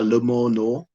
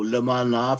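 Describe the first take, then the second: First: The vowels are pronounced with an o sound. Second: The vowels are pronounced with an a sound.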